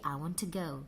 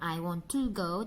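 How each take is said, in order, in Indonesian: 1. Kata 'to' memiliki vokal tereduksi. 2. Kata 'to' memiliki vokal penuh. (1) "tapi I want to go" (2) "bukan I want to go"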